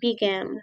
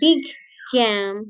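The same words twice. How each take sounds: First: The two g sounds blend into one. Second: The two g sounds are pronounced separately. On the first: The speaker calls it right. "but big game" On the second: The speaker calls it wrong. "It's not big game"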